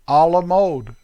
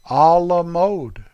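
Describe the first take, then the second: First: It is said with an American accent. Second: It is said with a French accent. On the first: The speaker calls it wrong. "Darn American accent" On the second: The speaker calls it right. "Let me say it right"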